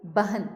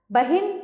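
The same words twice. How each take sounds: First: Said in the usual way. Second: बहिन with a clear "i", "ba-hin"; higher-pitched बहिन, said "ba-HIN"; misspelt i vowel. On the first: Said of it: "सामने शुद्ध करके". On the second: Shown as a demonstration. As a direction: put an "i" in the second syllable of बहिन. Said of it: "अशुद्ध शब्द लिखे हुए".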